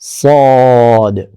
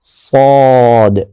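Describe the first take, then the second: The two takes are said the same way.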